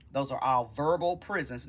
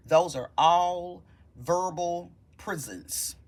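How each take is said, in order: First: Said in the usual way. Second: Each word weighed, slow and firm; slow emphasis. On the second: Shown as a demonstration. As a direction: drive the point home slowly. Repeats line, slow and emphatic.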